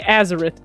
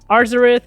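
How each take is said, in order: First: The first syllable has no R sound. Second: The first syllable has an R sound. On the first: The speaker calls it wrong. "a lot of people didn't pronounce that" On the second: The speaker calls it right. "there's an R"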